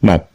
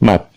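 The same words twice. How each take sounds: First: The final p is swallowed and barely heard. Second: The final p is swallowed and barely heard.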